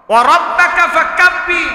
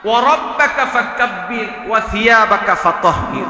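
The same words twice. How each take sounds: First: High, loud proclamation; emphatic recital. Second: Said in the usual way. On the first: Shown as a demonstration. Preacher repeating the verse to the crowd, ringing out.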